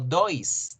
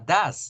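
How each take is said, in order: First: The vowel is an 'oy' sound. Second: The vowel is a short 'uh' sound. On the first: The speaker calls it wrong. "Yo no digo dois" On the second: The speaker calls it right. "de do paso a das"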